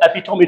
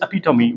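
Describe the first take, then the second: First: The word is said with three syllables. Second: The word is said with four syllables. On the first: The speaker calls it wrong. "you have recently mispronounced was not epitome" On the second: The speaker calls it right. "it's epitome"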